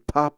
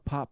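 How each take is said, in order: First: The voice sounds thin with less bass. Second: The voice sounds full with more bass. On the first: "It sounds a little thin to me" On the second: "I do like the bass response of this"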